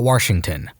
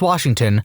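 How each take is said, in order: First: It is said with an extra R, Warshington. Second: It is said without an extra R sound.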